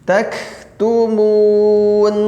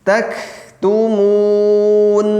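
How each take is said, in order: No difference in how they are said.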